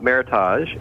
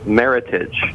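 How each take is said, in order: First: The ending is said the French way. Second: The ending rhymes with the word heritage. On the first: The speaker calls it wrong. "it's not Meritage" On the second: The speaker calls it right. "It rhymes with heritage"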